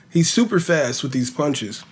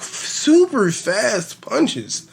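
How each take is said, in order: First: Said in the usual way. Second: "super fast punches" stretched very slow, higher pitch; drawn out emphasis. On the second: Shown as a demonstration.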